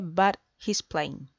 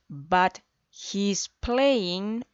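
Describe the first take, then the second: First: The words are said fast and run together. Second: The words are said slowly and separately.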